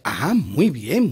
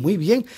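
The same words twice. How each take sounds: First: Slow, rising "muy bien" drawn out long; slow drawn-out praise. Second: A brisk, higher "muy bien"; a short, higher, rising "muy bien"; quick higher praise. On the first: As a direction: stretch it out, slow and sing-song. Teacher drawls praise slowly. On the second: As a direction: snap back up, higher and quick. Teacher repeats praise quickly. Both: Acted.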